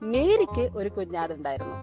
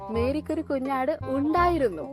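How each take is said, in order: First: The word മേരിക്ക് carries the emphasis. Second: The word ഉണ്ടായിരുന്നു carries the emphasis. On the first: Mary is the main point. "മേരിയാണ് അവിടുത്തെ highlight അല്ലെ" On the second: Mary had it once but not anymore. "ഇപ്പൊ ഇല്ല അല്ലെ"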